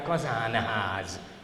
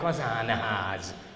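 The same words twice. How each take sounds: First: The n is pronounced as a full consonant. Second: The same.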